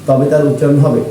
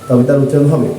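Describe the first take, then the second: Both takes have the same delivery.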